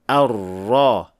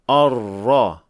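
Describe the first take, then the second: First: The opening vowel is light and thin. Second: The opening vowel is heavy and thick. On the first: The speaker calls it right. "Hamza here is a light letter" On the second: The speaker calls it wrong.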